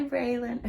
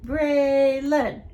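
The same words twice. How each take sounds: First: Said in the usual way. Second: "Braylon" loud, in two separate held beats; split into syllables. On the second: Shown as a demonstration. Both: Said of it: "Let's count the syllables".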